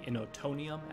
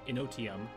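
First: The word is said with five syllables. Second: The word is said with four syllables. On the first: The speaker calls it wrong. "the Innotonium, as I called it" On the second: The speaker calls it right. "which is actually Innotium"

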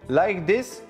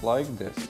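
First: It is spoken slowly and clearly. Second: It is spoken quickly and unclearly. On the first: The speaker calls it right. "Talk slowly and clearly. Like this" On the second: The speaker calls it wrong. "not like this"

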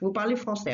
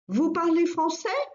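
First: The voice falls at the end. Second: The voice rises at the end.

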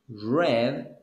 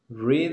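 First: The word sounds like 'red'. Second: The word sounds different from 'red'. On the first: The action happened before. "Read is the past. / It's like a color of red" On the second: The action happens now. "Read is in the present"

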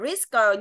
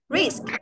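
First: The final k is voiced with an added vowel. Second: The final k is only a puff of breath. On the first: The speaker calls it wrong. "đừng đọc hẳn ra tiếng là risker như tiếng Việt" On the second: The speaker calls it right. "cái âm cờ... bằng hơi"

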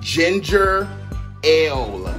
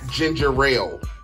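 First: No R sound is heard in it. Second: An extra R sound is heard in it. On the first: The speaker calls it right. "It's called ginger ale. ... There's no R" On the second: The speaker calls it wrong. "It's not ginger ale"

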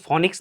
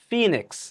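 First: The first vowel sounds like 'o'. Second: The first vowel sounds like 'ee'. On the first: The speaker calls it wrong. "ফনিক্স না" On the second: The speaker calls it right.

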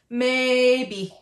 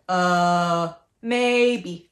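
First: The pitch stays high and level throughout. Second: The pitch dips low and then rises. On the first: "First and third" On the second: "First and third"

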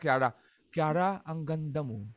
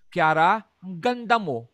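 First: It sounds like a sincere compliment. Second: It sounds like a mocking tease.

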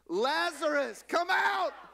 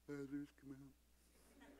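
First: It is shouted loudly and forcefully. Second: It is said softly, without force.

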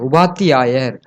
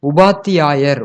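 Both takes have the same delivery.

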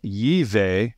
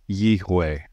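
First: The middle consonant is a V sound. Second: The middle consonant is a W sound. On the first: The speaker calls it wrong. "It's possible that the V sound may have come from a Germanic European influence. So rather than" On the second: The speaker calls it right. "it would be"

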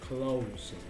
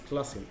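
First: The vowel in clo- is a long O. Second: The vowel in clo- is not a long O. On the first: The speaker calls it right. "lo mismo sucede con esta palabra" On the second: The speaker calls it wrong. "no es closing"

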